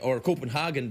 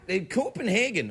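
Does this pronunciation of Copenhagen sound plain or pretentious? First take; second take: pretentious; plain. First: The city name is said with a showy, affected pronunciation. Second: The city name is said the ordinary English way.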